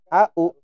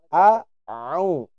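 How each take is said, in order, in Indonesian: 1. Dimulai dengan hamzah biasa. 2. Dimulai dengan konsonan dari tengah tenggorokan. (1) "Bukan au" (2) "tapi a'au"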